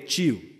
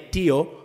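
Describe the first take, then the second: First: It is pronounced with the Brazilian sound. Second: It is pronounced the way the spelling suggests. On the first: "in Brazil they say tio" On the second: "you want to say tio"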